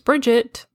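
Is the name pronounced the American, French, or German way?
American. The name is pronounced the American way. "the American pronunciation is Bridget"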